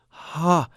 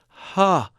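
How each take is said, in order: First: The vowel starts gently with breathy air. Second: The vowel starts gently with breathy air.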